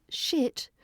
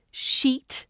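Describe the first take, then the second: First: Shit said with a short, lax i; short vowel. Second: Sheet said slowly with a long, held ee; long vowel. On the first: Teacher showing learners vowel length, short i in shit. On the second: Teacher showing learners vowel length, long ee in sheet. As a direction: hold the ee in sheet. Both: Shown as a demonstration.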